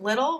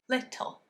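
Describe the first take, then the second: First: The word flows smoothly with no break inside. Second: A tiny gap splits the word in the middle. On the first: This is the everyday way of saying it. "which is how much people would say" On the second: This makes the line more interesting to hear. "that little gap actually creates something that's interesting"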